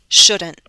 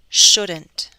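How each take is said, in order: First: The T is a glottal stop. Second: The T is fully released. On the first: "With a glottal stop" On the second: "with a true T"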